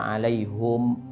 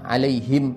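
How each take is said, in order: First: The final syllable has the vowel 'u'. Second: The final syllable has the vowel 'i'. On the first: This is an unusual reading that may seem odd to listeners. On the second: This is the familiar reading.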